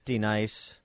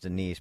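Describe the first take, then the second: First: The name is said in a comic, altered way. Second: The name is said in the ordinary way. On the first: "I'm going to go with the key and peel pronunciation" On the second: "I think it's Denise"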